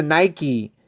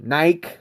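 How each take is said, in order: First: Nike said NY-kee, two syllables; American pronunciation. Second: Nike as one syllable, rhyming with bike; European pronunciation. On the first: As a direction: end Nike on a clear kee. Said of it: "we pronounce it". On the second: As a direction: drop the final ee from Nike. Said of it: "Do you guys pronounce it". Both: Shown as a demonstration.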